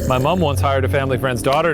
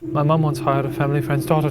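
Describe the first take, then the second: First: It is read in a plain, unaccented voice. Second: It is read in a milder English accent.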